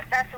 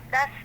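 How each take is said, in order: Both takes have the same delivery.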